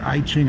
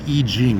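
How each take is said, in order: First: The name is said the old, familiar way. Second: The name is said the newly learned way. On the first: The speaker calls it wrong. "instead of calling it I Ching" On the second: The speaker calls it right. "it's supposed to be pronounced the I Ching"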